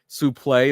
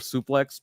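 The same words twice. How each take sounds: First: The word is said with a French-style pronunciation. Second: The word is said with an English-style pronunciation. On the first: This is the older way announcers said it. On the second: This is the way it is said today.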